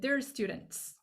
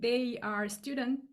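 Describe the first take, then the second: First: They and are are joined into one short syllable. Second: They and are are said as two full words. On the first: "you say" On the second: "instead of saying"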